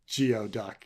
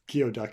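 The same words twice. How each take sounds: First: The first part sounds like 'gee-oh'. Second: The first part sounds like 'gooey'. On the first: This is how the spelling makes it look. "instead of instead of Geoduck" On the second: This is how the name is really said. "Geoduck instead of"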